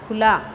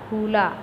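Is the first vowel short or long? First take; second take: short; long. First: The first vowel is short. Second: The first vowel is long. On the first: The speaker calls it right. "ख खपर छोटे मता खू" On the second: The speaker calls it wrong. "ख खपर बड़े मता खू"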